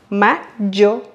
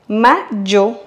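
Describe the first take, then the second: Both takes have the same delivery.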